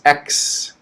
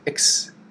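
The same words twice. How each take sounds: First: The syllable is longer with slight stress. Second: The syllable is short, quick and unstressed. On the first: "we have a little bit uh, stress" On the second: "It's quick"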